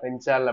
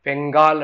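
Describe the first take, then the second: First: The middle consonant sounds like 'nj'. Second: The middle consonant sounds like 'ng'. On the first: This is how it is said in Tamil. "தமிழ்ல வந்து பாத்தீங்கன்னா பெஞ்சால் அப்படின்ற மாதிரி சொல்றாங்க" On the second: This is how the name is usually given. "பெங்கால் அப்படின்னு சொல்லுவாங்க"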